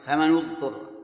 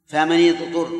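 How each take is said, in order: First: فمن اضطر with nun of فمن voweled u, famanu; damma reading. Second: فمن اضطر with nun of فمن voweled i, famani; kasra reading. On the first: Teacher reciting the second reading to the class, damma on nun. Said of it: "الضم النون". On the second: Teacher reciting the first reading to the class, kasra on nun. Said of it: "هذه واحد". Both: Shown as a demonstration.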